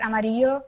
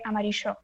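First: The double l sounds like y, Mexican style. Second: The double l sounds like sh, Argentinian style.

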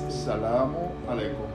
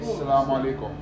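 First: The greeting is said carefully with every sound clear. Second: The greeting is said quickly with shortened sounds. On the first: This is the full form as it is written. "so I give you the clear" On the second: This is the popular everyday way to say it. "Some people they say Salam Aleikum. ... Quickly"

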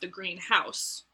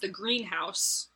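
First: The stress falls on the word house. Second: The stress falls on the word green. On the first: It is a house that is green. "a dwelling that is green" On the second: It is a place where plants are raised. "a place where you raise plants"

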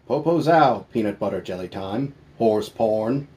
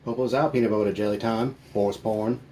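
First: It is said more slowly. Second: It is said at normal speed.

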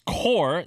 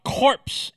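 First: The word ends in an r sound. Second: The word ends in a ps sound. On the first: The speaker calls it right. "it's core" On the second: The speaker calls it wrong. "not corpse"

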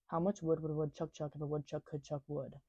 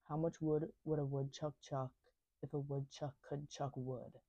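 First: It is said fast. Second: It is said at normal speed.

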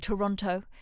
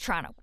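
First: It is said without a Canadian-style accent. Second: It is said in a Canadian-style accent. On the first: This is not how locals say it. The speaker calls it wrong. "people don't say Toronto" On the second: This is how locals say it. The speaker calls it right. "it's Toronto"

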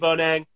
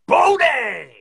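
First: The name is said flatly. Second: The name is said excitedly.

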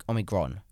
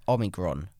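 Both takes have the same delivery.

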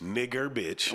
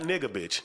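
First: The first word ends in an 'er' sound. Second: The first word ends in an 'a' sound. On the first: "With the E-R at the end"

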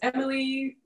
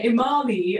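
First: The name is said plainly, without a stressed middle 'a'. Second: The name has heavy emphasis on a middle 'a'. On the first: The speaker calls it right. "I tend to say it just the normal way" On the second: The speaker calls it wrong. "the emphasis on the A"

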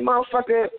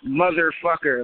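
First: The word is said in a heated, intense way. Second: The word is said in a calm, plain way. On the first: "when you're in the heat of the moment" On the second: "like that's really the word"

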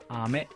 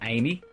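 First: The word ends with an 'eh' sound. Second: The word ends with an 'ee' sound. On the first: The speaker calls it right. "It's Japanese, so it's ame" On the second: The speaker calls it wrong. "you'd be tempted to pronounce it as Amy, but it's not"

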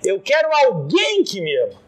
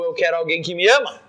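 First: The stress falls on the word alguém. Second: The stress falls on the word ama.

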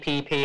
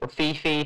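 First: Each syllable begins with a p sound. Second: Each syllable begins with an f sound. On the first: "over there, they pronounce it PP" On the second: "however you want to pronounce it"

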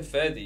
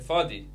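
First: The first syllable sounds like 'fer'. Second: The first syllable sounds like 'fah'. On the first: The speaker calls it wrong. "You didn't say Ferdi" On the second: The speaker calls it right. "you say Fadi"

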